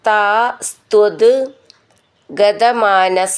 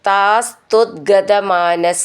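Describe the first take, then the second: First: The words are said separately, ending in t. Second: The words are joined, with t becoming d.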